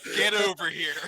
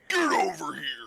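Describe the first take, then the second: First: It is said in a normal voice. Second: It is said in Scorpion's put-on voice.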